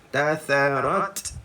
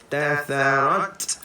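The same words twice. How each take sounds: First: The final t ends with a light breathy release. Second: The same.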